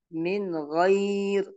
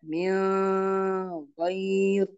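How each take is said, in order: First: Short clear N in "min"; correct clear nun. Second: "min" melting into a long nasal hum; wrong held nun. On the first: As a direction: go straight from "min" into "ghair". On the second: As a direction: hold the end of "min" before "ghair". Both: Shown as a demonstration. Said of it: "Tidak boleh dibaca".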